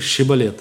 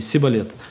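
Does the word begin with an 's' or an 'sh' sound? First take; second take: sh; s. First: The word begins with an 'sh' sound. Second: The word begins with a plain 's' sound. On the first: This is the way the test word was meant to be said. The speaker calls it right. "скажи" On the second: The speakers could not produce the required sound. The speaker calls it wrong. "Они не могли"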